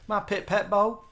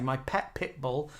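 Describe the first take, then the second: First: It is said in a southern accent, vowels swapped. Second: It is said in a plain, everyday accent. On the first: "My southern accent. ... I flip the vowels round, and take off the L's" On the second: "instead of saying my pet pit bull"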